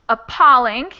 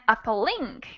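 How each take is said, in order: First: The stress is on the second syllable. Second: The stress is on the third syllable. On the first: The speaker calls it right. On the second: The speaker calls it wrong.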